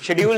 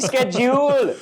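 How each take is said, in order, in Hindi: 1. शब्द 'sh' ध्वनि से शुरू होता है। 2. शब्द 'sk' ध्वनि से शुरू होता है। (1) "शेड्यूल नहीं बोले" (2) "मैं स्केड्यूल बोले"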